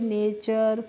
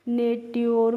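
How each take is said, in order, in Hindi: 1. अंत ch ध्वनि से बोला जाता है। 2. अंत t-y ध्वनि से बोला जाता है। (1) "जब आपको पता है इनको हमें कैसे पढ़ना है तो आप आराम से पढ़ लेंगे" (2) "जिन बच्चों को रूल नहीं पता है तो हो सकता है वो इनको नेट्योर"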